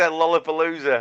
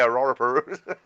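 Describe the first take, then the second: First: The word starts with a clear L sound. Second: The word starts with an R-like sound. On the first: The speaker calls it right. "So you had to say Lollapalooza" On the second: The speaker calls it wrong. "obviously they say Rorapalooza"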